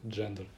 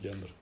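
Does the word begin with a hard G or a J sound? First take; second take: J sound; hard G. First: The word begins with a soft J sound. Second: The word begins with a hard G sound. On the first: The speaker calls it right. "правильно говорит «джендер»" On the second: The speaker calls it wrong. "а не «гендер»"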